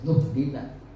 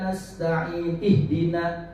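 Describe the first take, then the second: First: The words are joined through a linking 'nu' sound. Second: The two words are said separately, with a fresh start. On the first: The speaker calls it right. "harus nuhdina" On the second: The speaker calls it wrong. "itu kan salah bacanya"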